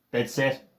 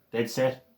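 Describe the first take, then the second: No difference in how they are said.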